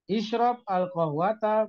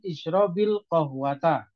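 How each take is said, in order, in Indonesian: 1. Kedua kata diucapkan terpisah tanpa vokal penghubung. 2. Kedua kata disambung dengan bunyi 'i' penghubung.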